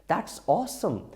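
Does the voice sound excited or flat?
excited. It is said with lively, excited emotion. The speaker calls it right.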